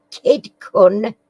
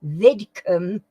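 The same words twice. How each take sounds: First: Host misreads the name. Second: "Vidkun" said carefully with a rise; fixing the misread as "Vidkun"; host corrects his misreading; corrected name. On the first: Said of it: "Kid, Vid, sorry, Vid". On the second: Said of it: "I can't read my own writing here". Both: Real, not acted.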